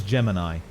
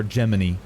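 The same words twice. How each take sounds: First: "Gemini" with a long I at the end; Gemini ending in "eye". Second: "Gemini" with an ee sound at the end. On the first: Streamer naming the lantern creature, "Gemini" said JEM-in-eye. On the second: Streamer offering the other name, "Gemini" said JEM-in-ee. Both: Shown as a demonstration. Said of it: "Whatever you wanna fucking call it".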